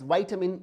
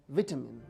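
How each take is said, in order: First: The word is said with an American pronunciation. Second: The word is said with a British pronunciation. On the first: "pronounced as vitamin in American English" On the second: "let's pronounce it as vitamin"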